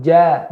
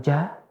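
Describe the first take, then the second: First: "ja" with the mouth fully open on a clear fathah a; an open, bright "ja" with a full a vowel; correct ja. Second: "ja" said slow and soft with the mouth barely open; a closed, mumbled "ja" to show the mistake; wrong ja. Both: Shown as a demonstration. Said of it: "bukan ja, tapi ja".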